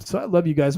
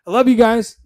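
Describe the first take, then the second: First: Said in the usual way. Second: A bright, loud burst of I love you guys; loving sign-off. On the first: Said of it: "I just said the love word". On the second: Real, not acted. Host signing off to his viewers, loud and bright. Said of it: "Look at that. I just said the love word".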